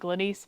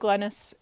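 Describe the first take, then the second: First: The name ends with a long 'eese' sound. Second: The name ends with a short 'is' sound. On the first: This is the name's actual pronunciation. The speaker calls it right. "it's actually Glenise" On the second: This is how people often read the name. The speaker calls it wrong. "he said Glennis"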